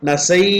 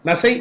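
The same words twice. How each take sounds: First: The final vowel is drawn out longer. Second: The final vowel is short. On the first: The speaker calls it right. "கொஞ்சம் நீண்டு ஒலிக்கிறது" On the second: The speaker calls it wrong. "நசை அப்படின்னு சொல்றதை விட"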